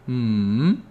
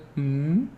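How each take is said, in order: First: The pitch dips down then rises. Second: The pitch rises upward. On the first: "The third tone is the harder one" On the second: "Second tone is when you are mimicking someone being slow or just not understanding something"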